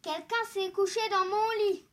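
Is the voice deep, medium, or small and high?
deep. It is said in a big, deep voice.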